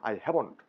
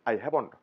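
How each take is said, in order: No difference in how they are said.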